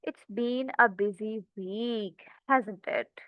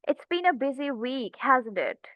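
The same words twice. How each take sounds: First: Softer, slower "It's been a busy week, hasn't it?" with a falling tone; low, concerned tone. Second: Friendly. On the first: Teacher demoing a reply to a stressed friend, soft and concerned. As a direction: sympathize with someone in distress. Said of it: "tone मेरी थोड़ी सी लो होगी". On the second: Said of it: "friendly तरीके से मैं उनसे बात करूँ". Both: Shown as a demonstration.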